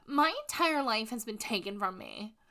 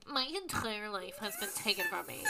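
First: Said in the usual way. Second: Nasal-free but pretentious, whiny Squidward take; Squidward impression. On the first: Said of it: "She goes on to say". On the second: Host mimicking Casey like Squidward, mock pretentious. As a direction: sulk it like Squidward. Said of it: "in Casey's voice ... Like fucking Squidward".

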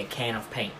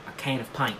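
First: Said in the usual way. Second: "paint" said as "pint" in Australian; softly demonstrated Australian "can of pint"; Australian accent. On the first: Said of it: "get into the Australian accent, you say". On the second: Shown as a demonstration. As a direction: practise Australian vowels on "paint". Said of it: "get into the Australian accent".

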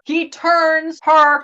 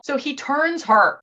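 First: Very slow, drawn-out reveal; dramatic drawl. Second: Said in the usual way. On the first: Real, not acted. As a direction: stretch each word for suspense. Repeats the phrase for drama.

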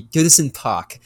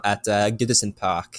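First: Put-on Goodison Park said in a slipped-in French accent, a bit higher and louder. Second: Said in the usual way. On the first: Thanking his co-host for the name, then a French-accented Goodison Park. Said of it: "a French accent or something". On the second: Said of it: "I went into, like, a French accent".

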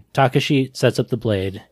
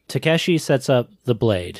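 First: "Takashi" said TAH-kuh-shee, open ah first; corrected name. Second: "Takeshi" said tuh-KAE-shee, wrong middle vowel; mispronounced name. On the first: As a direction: say "Takashi" with an ah then uh. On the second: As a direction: say "Takeshi" with an a as in cat. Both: Real, not acted. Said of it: "It's Takashi".

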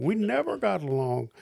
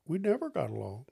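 First: "never" punched and brought down hard; emphatic restatement. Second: First take, stress on never rising; "never" lifted with a rising end; retorting. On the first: Repeating it to the listener, never stressed with a final fall. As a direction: stress on NEVER, falling firmly. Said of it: "It wasn't a question of ever getting along". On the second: To the departing pastor, never said with a rise. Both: Retold or imitated.

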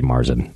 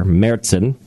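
First: Marzen as "MAR-zen"; anglicized Marzen; English pronunciation. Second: Märzen as "MAIR-tsen"; German-style Märzen; German pronunciation. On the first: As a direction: say Marzen with an ah and plain z. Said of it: "or in English". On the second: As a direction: open Märzen with "air", then ts. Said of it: "not with a A, but like a R". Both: Shown as a demonstration.

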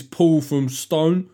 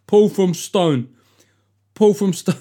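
First: Said in the usual way. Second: Higher, louder, slow dopey take on Paul from Stone; mocking a name as stupid; mock dim voice. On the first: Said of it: "I don't know why". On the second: Shown as a demonstration. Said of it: "your name suggests that you are".

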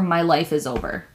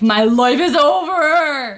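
First: Said in the usual way. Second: Slow, louder, melodramatic sob; mock despair. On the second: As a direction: wail it like a tragic heroine. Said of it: "like, fucking mood".

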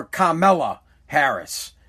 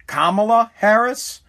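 First: "Kamala" said kuh-MEL-uh, stressed in the middle; second-syllable stress. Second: "Kamala" said KAH-muh-luh, stressed up front; first-syllable stress. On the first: Host offers the other name option, "Kamala" as kuh-MEL-uh. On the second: Host tries out the candidate's name, "Kamala" as KAH-muh-luh. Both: Shown as a demonstration. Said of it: "how do we say this lady's name?".

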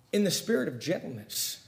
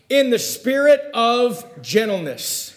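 First: Softly spoken, hushed repeat; gentle. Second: Slow, high, deliberate scripture reading; emphatic verse reading. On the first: Preacher repeats the verse for the congregation, gently. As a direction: let the verse land softly. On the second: Preacher reads the verse to the congregation, emphatic and slow. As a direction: draw the verse out with full voice. Verse read out, then repeated softly. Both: Real, not acted.

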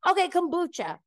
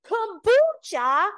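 First: Said in the usual way. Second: Very high, loud, stretched-out KOMBUCHA; mocking incredulity. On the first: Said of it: "So finally, I'm like". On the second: Man ridiculing her favorite drink, hammed-up mocking imitation. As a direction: draw out Kombucha in exaggerated high disbelief. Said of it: "pretending he's laughing".

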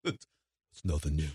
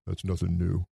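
First: Very low, soft, slow Rambo growl; mock Rambo. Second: Low, soft, flat-voiced Rambo line; deadpan Rambo. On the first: Echoing the Rambo line to the co-host, very low and slow. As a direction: drag it out low like a burnt-out soldier. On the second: Mocking Rambo's weary line to the co-hosts, low and soft. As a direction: mutter it like a weary tough guy.

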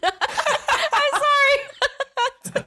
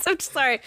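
First: High, slow laughing through words; can barely get it out laughing; laughing apology. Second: Said in the usual way. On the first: Real, not acted. Laughing fit while apologizing.

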